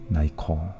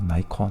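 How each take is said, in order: First: The first syllable sounds like 'nee'. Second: The first syllable sounds like 'nigh'.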